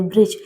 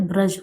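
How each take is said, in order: First: ब्रिज said with short i, bri-j; wrong pronunciation. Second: ब्रज said braj, plain short a after br; correct pronunciation. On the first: Teacher shows students the wrong ब्रिज with short i. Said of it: "ब्रिज नहीं होता है". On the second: Teacher gives students the right ब्रज with short a. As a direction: say ब्रज with a clear short a, no i sound. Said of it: "ब्रज होता है". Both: Shown as a demonstration.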